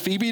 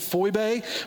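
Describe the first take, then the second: First: The name is said with an English-style pronunciation. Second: The name is said with a Greek-style pronunciation. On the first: "that doesn't sound as good as Phoebe to me" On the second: "The real pronunciation of her name is"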